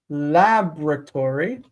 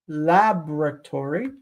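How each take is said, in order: First: The first syllable is stressed; the O drops. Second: The same.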